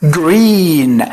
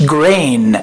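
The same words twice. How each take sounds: First: "green" with a long pure ee; corrected vowel. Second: "grain" with an ay glide in place of ee; wrong vowel. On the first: Teacher corrects the mistake for students, long ee in "green". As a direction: stretch the ee in "green", no ay glide. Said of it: "لا، لا، لا، هي green". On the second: Teacher shows students the mistaken word, "grain" with ay. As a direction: draw out "grain" with an ay sound, as the mistake. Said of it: "مش grain". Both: Shown as a demonstration.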